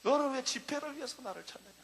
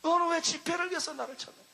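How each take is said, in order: First: Low, hushed voice of God; a hushed, searching divine rebuke; voice of the Lord. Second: Firmer, near-plain repeat of the divine question; voice of the Lord. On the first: The Lord quietly questions the preacher, low and hushed. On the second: The Lord repeats the question to the preacher, firmer. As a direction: ask it again, steadier and falling. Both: Retold or imitated. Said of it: "주님이 나에게 말씀했어요".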